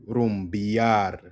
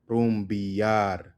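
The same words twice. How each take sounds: The two takes are said the same way.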